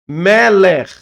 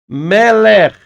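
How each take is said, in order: The two takes are said the same way.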